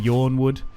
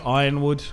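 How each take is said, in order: First: The name begins with the sound of 'yawn'. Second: The name begins with the sound of 'iron'. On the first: Other people's pronunciation. "People say Yawnwood" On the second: The speaker's own habitual pronunciation. "I always say Ironwood"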